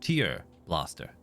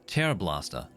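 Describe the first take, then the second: First: 'Tear' is said like the word for crying. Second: 'Tear' is said like the word for ripping. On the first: The weapon shoots teardrops. The speaker calls it wrong. "not tear blaster. Because it's not shooting tears" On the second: The weapon rips things apart. The speaker calls it right. "in this context is tear blaster"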